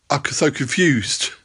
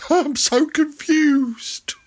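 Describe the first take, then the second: First: Said in the usual way. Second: Breathy high whisper. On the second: Acted. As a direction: whisper it, confused. Whispered repeat.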